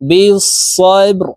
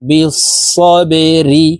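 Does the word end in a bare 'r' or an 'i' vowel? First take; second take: bare r; i vowel. First: The word ends on a bare 'r' sound. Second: The word ends with an 'ri' sound. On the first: "রকে যখন আমরা সাকিন করে ফেলবো" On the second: "را زر রি"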